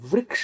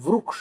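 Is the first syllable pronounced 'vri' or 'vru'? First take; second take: vri; vru. First: The first syllable is pronounced with 'ri'. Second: The first syllable is pronounced with 'ru'. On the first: This is the northern way of saying it. "अपन उत्तरापथ में वृक्ष बोलते हैं" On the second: This is the southern way of saying it. "यहां दक्षिणापथ में वृक्ष बोलते हैं"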